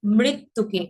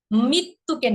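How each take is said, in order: First: মৃত্যুকে with a clear mri at the start; মৃত্যুকে, ri sound kept; correct pronunciation. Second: মৃত্যুকে with the r dropped, mittuke; মৃত্যুকে said without the ri sound; wrong pronunciation. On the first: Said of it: "রিকারের উচ্চারণ করতে হবে". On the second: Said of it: "মৃত্যুকে না". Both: Shown as a demonstration.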